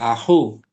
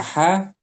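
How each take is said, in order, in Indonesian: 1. Vokal kedua adalah u. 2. Vokal kedua adalah a. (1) "tapi a ahu" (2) "Bukan aha"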